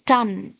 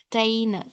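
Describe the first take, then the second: First: The final syllable has a weak, reduced vowel. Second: The final syllable has a full 'ay' vowel. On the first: The speaker calls it right. "It is ton, mountain, mountain" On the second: The speaker calls it wrong. "So few people pronounce this as mountain, tain, tain, but it is not tain"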